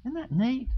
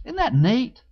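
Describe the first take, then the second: First: Softer, hushed Isn't that neat; soft echo. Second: Said in the usual way. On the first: Shown as a demonstration. Pastor marvelling quietly to the congregation, hushed. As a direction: echo it barely above a whisper.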